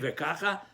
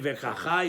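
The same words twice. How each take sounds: First: Vekacha stressed on KA, light ending; stress on first syllable. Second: Vekacha with the final CHA stressed; stress on last syllable. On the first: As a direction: hit the KA in vekacha, ve-KA-cha. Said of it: "on the first syllable". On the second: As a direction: put the weight on the end of vekacha, ve-ka-CHA. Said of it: "the last syllable". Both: Shown as a demonstration.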